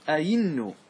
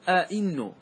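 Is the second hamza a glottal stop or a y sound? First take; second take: y sound; glottal stop. First: The second hamza is pronounced as a y sound. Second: Both hamzas are pronounced as glottal stops. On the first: "تقلبها إلى إلى ياء" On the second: "يحقق الهمزتين"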